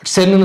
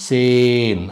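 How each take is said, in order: First: The vowel is said short. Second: The vowel is said long. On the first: The speaker calls it wrong. "சென்னு சொல்லக்கூடாது" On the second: The speaker calls it right. "அதை நெடில் மாதிரி சொல்லிடணும்"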